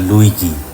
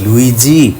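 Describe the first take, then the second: First: The name is said with a hard G sound. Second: The name is said with a J sound. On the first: The speaker calls it wrong. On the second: The speaker calls it right.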